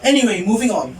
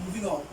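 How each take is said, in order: First: Said in the usual way. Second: A quiet under-the-breath repeat; muttered aside. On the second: Real, not acted. Student telling listeners she's moving past the tangent, muttered softly. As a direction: mumble it to yourself as you move on. Repeats to herself, much softer.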